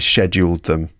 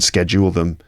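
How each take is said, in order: First: The word is said with a British pronunciation. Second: The word is said with a non-British pronunciation. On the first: "that's how uh, that word is pronounced in my version of English. Uh, British English" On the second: "I didn't schedule them"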